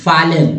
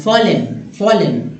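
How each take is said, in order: First: "fallen" with an "aa" first vowel, "faa-len"; common mispronunciation. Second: "fallen" slowly with a round O, "fo-len"; O-sound pronunciation. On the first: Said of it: "लोग fallen पढ़ते हैं". ("fallen" का गलत उच्चारण, आ के साथ फालेन) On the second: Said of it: "ओ की तरह उच्चारण करना". ("fallen" का उच्चारण ओ की तरह, फोलेन) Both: Shown as a demonstration.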